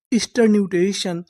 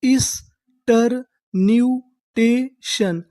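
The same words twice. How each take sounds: First: Said in the usual way. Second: Stretched out slowly, each syllable apart; teacher drawing out every syllable. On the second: Shown as a demonstration. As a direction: spell it out slowly for students. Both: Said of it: "तो हमारी पूरी meaning क्या बनी?".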